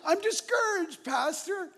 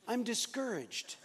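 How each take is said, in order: First: Much higher, louder, sing-song holy tone; mock pious pastor voice. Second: Said in the usual way. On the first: Pastor mocks himself answering his counselor in a pious, much higher voice. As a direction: ham up a pastor spiritualizing his feelings. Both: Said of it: "a pastor has to spiritualize it".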